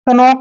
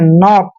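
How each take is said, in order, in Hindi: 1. n से पहले k की ध्वनि आती है। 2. शब्द सीधे n से शुरू होता है, k मौन है। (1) "कभी भी हम इसको कनॉक नहीं पढ़ते हैं" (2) "हमेशा हम इसको नॉक पढ़ते हैं"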